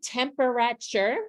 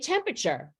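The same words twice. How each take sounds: First: Every printed syllable is pronounced, four in all. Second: One syllable is dropped, leaving three in all. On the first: The speaker calls it wrong. "We surely do not" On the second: The speaker calls it right. "We say temperature"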